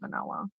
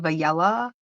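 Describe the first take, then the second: First: The middle N sound is clearly pronounced. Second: The middle N sound is dropped. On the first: The child has learned to say the word. The speaker calls it right. "she can say vanilla" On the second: A small child could not say the word yet. The speaker calls it wrong. "She would say Vayella"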